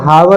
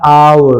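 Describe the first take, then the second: First: The word begins with an h sound. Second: The word begins with a vowel sound. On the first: The speaker calls it wrong. "इसे हावर नहीं पढ़ते" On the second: The speaker calls it right. "इसे पढ़ते हैं आवर"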